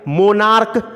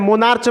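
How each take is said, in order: First: The word ends with a k sound. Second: The word ends with a ch sound. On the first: The speaker calls it right. "मोनार्क पढ़ते हैं" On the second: The speaker calls it wrong. "मोनार्च मत पढ़िएगा"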